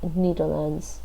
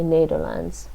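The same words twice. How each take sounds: First: The first vowel is short. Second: The first vowel is long. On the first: The speaker calls it wrong. "So you don't say uh, uh, Netherlands" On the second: The speaker calls it right. "the first e is a long e"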